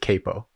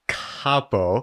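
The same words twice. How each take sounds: First: The name is said with an American pronunciation. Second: The name is said with an Italian pronunciation. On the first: This is how the family says it. "because that's the American pronunciation" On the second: This is how it is really pronounced. "but actually it is Capo"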